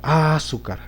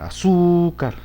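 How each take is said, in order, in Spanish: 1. El acento está en la primera sílaba. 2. El acento está en la segunda sílaba. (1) "en la A" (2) "en la sílaba su, allí sí se acentúa"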